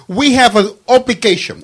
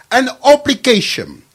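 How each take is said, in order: First: An obligation said with weight; stressed obligation. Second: Obligation hit higher and harder; repeated with stress. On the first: Guest insisting on the word obligation. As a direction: lean on obligation. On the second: Guest repeating obligation for emphasis. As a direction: punch obligation the second time. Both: Real, not acted. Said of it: "I repeat".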